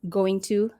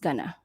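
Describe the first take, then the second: First: Both words are said fully and separately. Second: The words are run together into one short word. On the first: "When you are combining these two words" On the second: "it becomes gonna"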